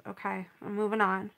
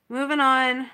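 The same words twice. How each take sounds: First: Said in the usual way. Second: Louder, firm moving on; emphatic self-push. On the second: Real, not acted. To viewers after the ruined painting, louder firm resolve. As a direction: push herself forward with a loud resolve. Tells herself to move on.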